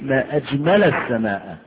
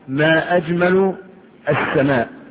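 First: The word ajmal ends with an 'a' vowel. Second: The word ajmal ends with a 'u' vowel. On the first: It exclaims how beautiful the sky is. The speaker calls it right. "إذن فقولي" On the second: It asks what the most beautiful thing in the sky is. The speaker calls it wrong. "وضعت ضم على اللام"

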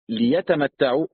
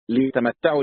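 First: The l is followed by a short i. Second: The l is followed by no vowel. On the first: So that they may enjoy themselves. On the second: Let them enjoy themselves.

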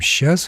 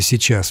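First: The word is shortened to one clipped syllable. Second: The word is pronounced in full, both syllables clear. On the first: "мы говорим «сейчас»" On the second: "вместо «сейчас»"

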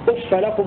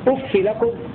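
First: The f ends in a short a vowel. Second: The f ends in a short i vowel. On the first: "هكذا يقرأ ابن كثير وابن عامر بفتح الفاء" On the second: "بكسر الفاء من غير تنوين هكذا"

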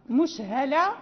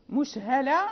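No difference in how they are said.

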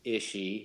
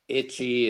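First: The middle consonant is an 'sh' sound. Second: The middle consonant is a 'ch' sound. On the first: The speaker calls it wrong. "is ishy" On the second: The speaker calls it right. "Itchy is"

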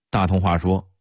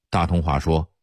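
Both takes have the same delivery.

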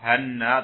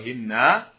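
First: The first vowel is an open a sound. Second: The first vowel is a front i sound. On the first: "Kalau dibaca fathah" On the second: "atau kasrah"

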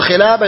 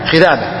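First: The middle consonant is a clear L sound. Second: The middle consonant is a lisped TH sound. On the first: "بدل خلابة" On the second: "يقول خذابة"

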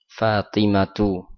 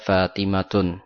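First: The word ends in a vowel without n. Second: The word ends with an added n sound. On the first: The speaker calls it right. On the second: The speaker calls it wrong.

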